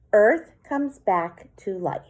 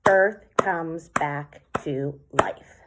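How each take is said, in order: First: Poem reading. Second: "Earth comes back to life" in slow, separate syllables; clapped out syllables. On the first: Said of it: "And then my last line". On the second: Teacher claps the last haiku line for the class, slowly. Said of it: "So I clapped that out". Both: Shown as a demonstration.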